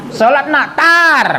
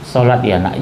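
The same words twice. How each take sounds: First: High sharp burst ending even higher on tar; mock-scolding mother, higher and sharp; nagging mother yell. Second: Gentle mother. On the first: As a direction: snap it at the kid like a firecracker. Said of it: "Kayak petasan". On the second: Shown as a demonstration. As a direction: ask your child tenderly, no scolding. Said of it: "Lembut sama anak".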